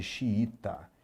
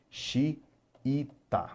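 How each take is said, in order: First: Said in the usual way. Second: "Xiita" split as Xi... i... ta with pauses; syllable by syllable. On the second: Shown as a demonstration. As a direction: sound out "Xiita" in three separate syllables. ("Xiita" sílaba por sílaba: Xi... i... ta) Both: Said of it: "por exemplo, de xiita".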